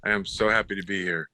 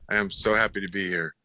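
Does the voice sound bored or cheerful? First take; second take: bored; bored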